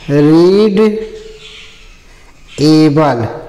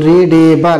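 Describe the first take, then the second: First: The two parts are said separately. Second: The d links straight into the following vowel. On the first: "रीड धन एबल तो क्या हो जाएगा" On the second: "ए की मात्रा जो है वह डा पर चली जाएगी"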